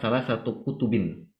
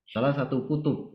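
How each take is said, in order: First: The last word ends with a full case ending. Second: The last word ends without its case ending. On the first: This is the formal, correct grammatical form. "Kita mengatakan" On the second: This is how it is said in everyday conversation. "biasanya harokat terakhir itu nggak dibaca"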